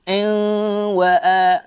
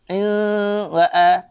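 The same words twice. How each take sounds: No difference in how they are said.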